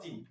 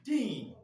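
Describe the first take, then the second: First: Put-on "teen" cut short, low and soft; wrong short teen. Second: Put-on "teen" with a long, high falling vowel; corrected long teen. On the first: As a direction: say "teen" quickly with a short low vowel, as the mistake. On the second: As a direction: hold the ee in "teen", pitched high, as the model. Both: Shown as a demonstration. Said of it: "Not teen".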